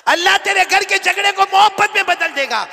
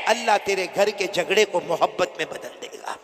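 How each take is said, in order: First: High and loud, मोहब्बत stressed; proclaimed shout. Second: Said in the usual way. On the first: Acted. Preacher shouting the promise to the congregation. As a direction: repeat it as a roaring proclamation.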